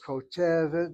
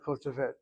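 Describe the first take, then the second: First: The stress falls on the middle syllable. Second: The stress falls on a different syllable. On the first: The speaker calls it right. "the emphasis should be over the segol" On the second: The speaker calls it wrong. "not kotevet"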